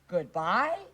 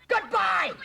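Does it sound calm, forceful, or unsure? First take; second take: unsure; forceful. First: It is said unsure, like a question. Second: It is said forcefully, with strong feeling.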